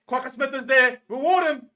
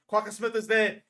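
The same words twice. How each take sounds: First: Much higher and louder, screaming for the turnover; full scream. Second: Higher and louder call; excited shout. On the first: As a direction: roar for the referee to reward him. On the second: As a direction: yell it at the screen. Tense defence, shouting. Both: Real, not acted.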